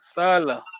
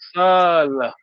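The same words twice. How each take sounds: First: The word is said with a short vowel. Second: The word is said with a long vowel. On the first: It means work. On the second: It means to stay.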